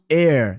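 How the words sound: The final R is strongly pronounced.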